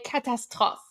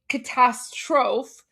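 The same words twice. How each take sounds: First: It is said with a French accent. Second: It is said with an English accent.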